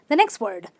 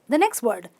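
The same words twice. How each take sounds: No difference in how they are said.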